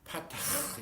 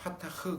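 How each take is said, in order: First: The final h sound is harsh and throaty. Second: The final h sound is soft and light.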